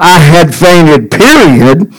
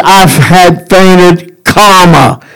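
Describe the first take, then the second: First: I had fainted with a final fall, then period; full stop reading. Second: I've had fainted drawn out slowly and left hanging, then comma; comma reading. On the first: Preacher showing the wrong reading of the psalm as a final stop. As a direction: let I had fainted drop and stop dead. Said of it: "It is not". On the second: Preacher showing the psalm's real reading as an unfinished, continuing phrase. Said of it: "It is". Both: Shown as a demonstration.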